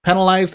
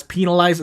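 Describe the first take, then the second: First: "penalized" with short e, PEN-alized. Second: "penalized" with long ee, PEE-nalized. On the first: Player explaining pronunciation, "penalized" said PEN-alized. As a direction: say "penalized" starting like the word pen. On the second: Player explaining pronunciation, "penalized" said PEE-nalized. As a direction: say "penalized" starting like the word pea. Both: Shown as a demonstration. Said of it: "how I pronounce".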